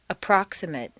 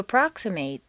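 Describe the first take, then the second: First: The last syllable has a weak reduced vowel. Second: The last syllable has a full 'ay' vowel. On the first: It is used as a noun or adjective. "completely reduced to mt" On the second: It is used as a verb. "a full a sound"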